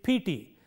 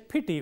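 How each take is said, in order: First: The vowels are long. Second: The vowels are short. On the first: The speaker calls it wrong. "You can't say it pity" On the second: The speaker calls it right. "they should say pity with two short vowels"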